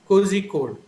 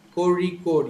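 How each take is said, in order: First: The middle consonant is a plain z sound. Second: The middle consonant is a retroflex r sound. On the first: The speaker calls it wrong. "Most of them who are not aware of this uh, sound will pronounce it as" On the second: The speaker calls it right. "but actually the sound is a Ra. ... You're supposed to say Kori code"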